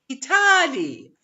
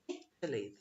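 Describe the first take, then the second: First: The stress is not on the first syllable. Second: The stress is on the first syllable. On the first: The speaker calls it wrong. "we say Italy, and that's completely wrong" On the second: The speaker calls it right. "The first syllable would be stressed"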